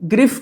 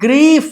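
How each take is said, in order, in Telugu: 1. అచ్చు చిన్నది, grif లాగా వినిపిస్తుంది. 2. అచ్చు పొడవుగా ఉంది, greef లాగా వినిపిస్తుంది. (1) "గ్రిఫ్ కాదండి" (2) "గ్రీఫ్ అంటాం"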